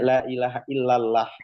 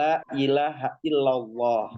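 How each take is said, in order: First: The l in Allah is thin and light. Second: The l in Allah is thick and heavy. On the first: "tafhimnya jadi tipis" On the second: "lamnya berfathah, ketemu lafaz Allah, maka dia tafhim"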